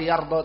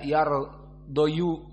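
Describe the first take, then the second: First: The word ends in a long 'a' sound. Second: The word ends in a 'yu' sound. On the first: The speaker calls it right. "Yardha ya sudah yardha" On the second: The speaker calls it wrong. "Tidak bisa menyebutkan yardoyu"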